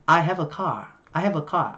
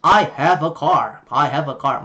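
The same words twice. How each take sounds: First: British "car" ending in an open ah; British r-less "car"; British accent. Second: American "car" with the r curled; American rhotic "car"; American accent. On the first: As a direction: drop the r in "car", British style. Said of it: "Giọng Anh thì là". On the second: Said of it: "Giọng Mỹ là". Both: Shown as a demonstration.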